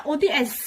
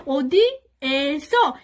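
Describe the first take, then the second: First: ওদি এস said short, without drawing out the এ; ওদি এস with a short, unheld এ; unstretched, wrong pronunciation. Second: ওদি এসো very slow, the এ stretched long; loud, deliberate ওদি এসো with a long এ; drawn-out pronunciation. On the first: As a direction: say ওদি এস quickly, এ cut short and no final o. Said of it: "এভাবে উচ্চারণ করেন না". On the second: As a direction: draw out ওদি এসো, holding the vowel এ before সো. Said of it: "টান দিয়ে বলবেন". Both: Shown as a demonstration.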